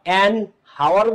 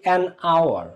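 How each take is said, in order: First: The word begins with an h sound. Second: The word begins with a vowel sound. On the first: The speaker calls it wrong. "অ্যান হাওয়ার বলো নাকি" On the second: The speaker calls it right. "নাকি an আওয়ার"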